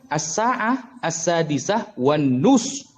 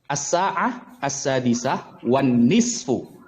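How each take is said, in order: First: The last word is one short syllable, nus. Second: The last word has two syllables, nisfu. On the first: This is how native speakers actually say it. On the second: This is the standard form of the phrase. "bahasa Arabnya kan begini seharusnya"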